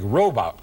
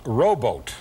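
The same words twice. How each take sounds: First: "robot" with a short O, rah-bot; "robot" said the way the computer read it, short O. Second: "rowboat" with a long O, like row; "rowboat" stretched into a long O sound. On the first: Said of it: "it gave you a short O". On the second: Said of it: "you need a long O". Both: Shown as a demonstration.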